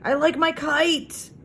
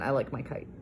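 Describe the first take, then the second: First: It is said with excitement. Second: It is said as a calm statement.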